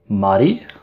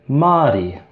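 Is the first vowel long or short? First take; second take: short; long. First: The first vowel is short. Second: The first vowel is long. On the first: "would be the short A" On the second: "would be the longer A"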